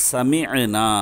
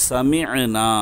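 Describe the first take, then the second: Both takes have the same delivery.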